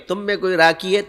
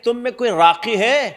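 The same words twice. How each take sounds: First: راکی said with a plain k, /raki/, no Arabic qaf; راکی with a light front k instead of ق; wrong pronunciation. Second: راقی with the Arabic ق from the back of the throat; Arabic pronunciation. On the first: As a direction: flatten the q of راقی into an ordinary k. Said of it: "یہ نہیں بولا". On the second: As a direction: give راقی a proper throaty q sound. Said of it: "عربی میں اس کو کہتے ہیں راقی". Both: Shown as a demonstration.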